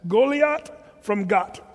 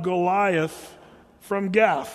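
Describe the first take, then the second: First: The th is pronounced as a t sound. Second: The th is pronounced as a th sound. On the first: This is the way it is said in Israel. "The TH is always a T sound" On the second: This is the familiar local way of saying it. "That's how we say it"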